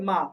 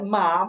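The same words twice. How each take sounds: First: The syllable is light, with a neutral tone. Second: The syllable has a high, level first tone. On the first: "neutral tone... একেবারে normal" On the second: "প্রথমে আছে first tone"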